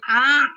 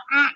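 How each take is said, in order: First: The sound is held but lets some air flow. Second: The sound is cut off and blocked abruptly. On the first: The speaker calls it right. "Jadi a gitu kan. Mesti ada ada aliran" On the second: The speaker calls it wrong. "tidak boleh macet ... Jadi tidak a gitu"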